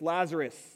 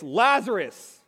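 First: The name is said at a fairly quiet volume. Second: The name is shouted out at a loud volume. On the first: The speaker calls it wrong. "That was not loud" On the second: The speaker calls it right. "he cried out with a loud voice"

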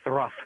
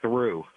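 First: The word ends with an f sound. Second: The word ends with a vowel sound. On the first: "we started saying thruff instead of through" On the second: "instead of through"

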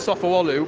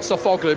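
First: The g sound in the middle is silent. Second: The g sound in the middle is pronounced. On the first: The speaker calls it right. "you don't pronounce G's in Turkish. So strictly speaking" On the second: The speaker calls it wrong. "not Sofoglu"

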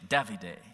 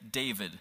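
First: It is said with an Italian accent. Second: It is said with an English accent.

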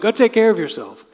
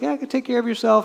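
First: It sounds scolding and rebuking. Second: It sounds kind and encouraging.

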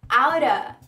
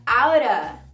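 Both takes have the same delivery.

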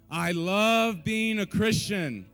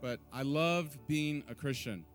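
First: It is said loudly and with strong emphasis. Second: It is said in a plain, ordinary way.

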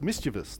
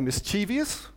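First: No extra syllable comes before the ending. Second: An extra 'ee' syllable comes before the ending. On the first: The speaker calls it right. "when it's mischievous" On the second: The speaker calls it wrong. "putting an extra I in"

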